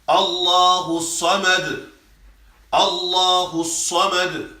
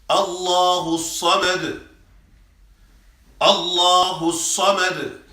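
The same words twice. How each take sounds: The two takes are said the same way.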